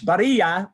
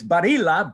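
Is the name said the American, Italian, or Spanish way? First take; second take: Spanish; Italian. First: The name is said with a Spanish pronunciation. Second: The name is said with an Italian pronunciation. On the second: "So in Italian, it's Barilla"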